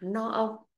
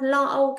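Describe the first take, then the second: First: The first word begins with an N sound. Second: The first word begins with an L sound. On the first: The speaker calls it wrong. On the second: The speaker calls it right.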